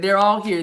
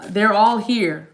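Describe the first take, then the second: First: Said in the usual way. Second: "they're all here" said slowly and firmly; deliberate, drawn-out "they're all here"; emphatic delivery. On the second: Real, not acted. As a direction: draw out "all here" with weight. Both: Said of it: "I'm just supposed to say it like that".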